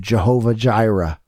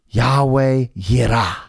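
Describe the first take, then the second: First: The words begin with a J sound. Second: The words begin with a Y sound. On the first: The speaker calls it wrong. "we've corrupted this to Jehovah Jireh" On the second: The speaker calls it right. "the J is actually a Y"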